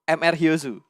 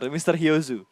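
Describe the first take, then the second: First: The title is spelled out as two letters. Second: The title is said as one word, mister. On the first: The speaker calls it wrong. "Kalau Indonesia tuh M R Hyozu" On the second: The speaker calls it right. "Harus mister"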